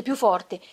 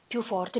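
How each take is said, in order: First: "più forte" burst out much louder. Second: Said in the usual way. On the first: A narrator's reading. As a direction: throw "più forte" out with a sudden surge. ("più forte" detto di colpo molto più forte) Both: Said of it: "Divenne più forte".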